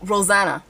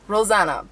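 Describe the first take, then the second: First: Rosanna with a flat A as in "Anna"; Rosanna, middle syllable like "zan"; name pronunciation. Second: Rosanna with an open "ah"; Rosanna, middle syllable like "zah"; name pronunciation. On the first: Unsure how name is said. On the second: Tries the name another way. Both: Shown as a demonstration.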